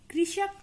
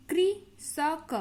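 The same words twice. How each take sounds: First: Said in the usual way. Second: Slow syllable-by-syllable demo. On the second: Shown as a demonstration. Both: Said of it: "तो इस तरीके से री का pronounce करते हैं".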